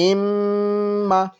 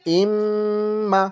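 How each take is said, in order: No difference in how they are said.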